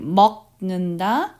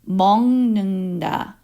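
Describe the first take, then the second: First: The first syllable ends in a k sound. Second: The first syllable ends in an ng sound. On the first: The speaker calls it wrong. "instead of saying 먹는다 with the K sound" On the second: The speaker calls it right. "make it softer by saying 먹는다. So with the N G sound"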